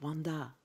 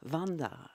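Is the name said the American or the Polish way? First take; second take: American; Polish. First: The name is said with an American pronunciation. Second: The name is said with a Polish pronunciation. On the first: "à l'américaine" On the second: "à la polonaise"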